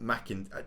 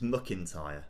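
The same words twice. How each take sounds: First: The first syllable has a full 'a' vowel. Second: The first syllable has a reduced vowel. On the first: The speaker calls it wrong. "not McIntyre" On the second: The speaker calls it right. "it's McIntyre"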